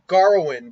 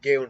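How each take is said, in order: First: An R-like sound follows the first syllable. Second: No R-like sound follows the first syllable. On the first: This is how the film says the name. "they call him Garwin, but there's no G R in his name" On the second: This is how the speaker chooses to say the name. "I'll go with Gawain for now"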